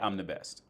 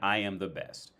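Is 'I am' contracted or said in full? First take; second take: contracted; full. First: I and am are joined into one syllable. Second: Each word is said separately and in full. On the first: "in everyday speak, we would just say I'm the best" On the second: "if I said I am the best"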